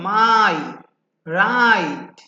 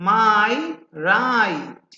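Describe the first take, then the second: The two takes are said the same way.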